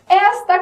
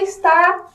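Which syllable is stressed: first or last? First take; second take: first; last. First: The stress is on the first syllable. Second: The stress is on the last syllable. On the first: It means this, pointing to something. "qual que é a tônica? No esta" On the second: It means is, describing a state. "no está"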